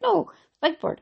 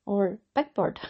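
First: "Big Bird" hit higher and louder, firmly correcting; correcting emphasis. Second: Said in the usual way. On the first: Shown as a demonstration. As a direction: stress "Big Bird" hard, high and loud as a correction.

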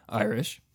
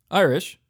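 First: IRISH low with a small rise at the end; low-key, lower-pitched IRISH; varied inflection. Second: IRISH pitched higher and louder; firm, high-pitched IRISH; varied inflection. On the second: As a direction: punch IRISH up high, then let it fall. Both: Shown as a demonstration. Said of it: "say we're Irish in a, in a couple different, uh, inflections".

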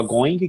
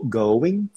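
First: "going" with a sounded g and final ee; mispronounced English word. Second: Said in the usual way. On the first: Shown as a demonstration. Learner shows his former error, mispronounced "going". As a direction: say "going" as "goin-ghee", like a beginner. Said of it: "E eu falava errado". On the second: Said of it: "que é go".

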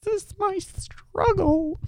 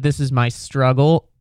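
First: Very high, soft and slow; drawn-out, quiet mock-suffering squeal; strained squeak. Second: Said in the usual way. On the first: Shown as a demonstration. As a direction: squeeze it out in a tiny high voice. Repeats his struggle in strained voice.

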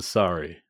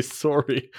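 First: "sorry" with an open "sah-ree" vowel; "sorry" rhyming with "starry". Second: "sorry" with a rounded "sore-ee" vowel; "sorry" rhyming with "story". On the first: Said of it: "As opposed to the sorry". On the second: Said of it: "I don't think I say sorry". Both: Shown as a demonstration.

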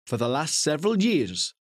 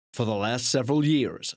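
First: Said in the usual way. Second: Hammed-up American blurb voice; dramatic American accent. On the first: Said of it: "I'll try and do it in a dramatic". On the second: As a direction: put on a dramatic, badly faked American accent. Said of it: "dramatic voices are always American as well".

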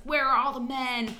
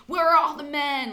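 First: Quoting the character's frantic line, higher; first take of the line, rising in alarm; character's cry. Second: The same line again, higher and louder; louder frantic repeat. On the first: The guest quotes her character going crazy, frantic. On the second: The guest quotes her character going crazy, building to frantic. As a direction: push the repeat into near hysteria. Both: Retold or imitated. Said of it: "she's like".

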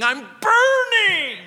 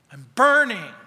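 First: Very high, loud, drawn-out scream; imitated scream. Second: Loud cry at near-normal pitch; a reined-in imitation of her scream; mock scream. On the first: Preacher imitating a woman screaming in Spanish, drawn-out scream. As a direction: scream it out as if in torment. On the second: Preacher repeating the tormented woman's words, loud reined-in cry. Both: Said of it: "she started screaming".

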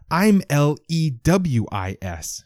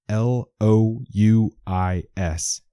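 First: Put-on L E W I S spelled slowly, high, in an old-movie accent; spelled out in 1940s accent. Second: L O U I S spelled out slowly, each letter apart. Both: A narrator's reading. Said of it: "How do you spell it".

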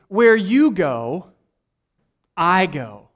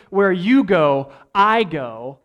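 First: "you" lifted and slowed, "I go" settled; solemn paraphrase, emphasis on "you"; stress on YOU. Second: "you" slowed and falling, "I go" firm; contrasting restatement, "you" falling; stress on YOU falling. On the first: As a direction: let "you" rise, then land "I go". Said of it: "if I can paraphrase him". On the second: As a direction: press "you" downward, then "I go". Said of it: "It's not necessarily". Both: Shown as a demonstration.

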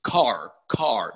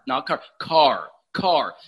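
First: Car, whispered low and short, Canadian vowel. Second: Car said slowly with a changed, non-Canadian vowel; car, repeated as the fixed pronunciation; corrected car. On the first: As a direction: say car the old Canadian way, under your breath. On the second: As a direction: drill the new car, slow and low. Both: Shown as a demonstration. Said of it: "then say".

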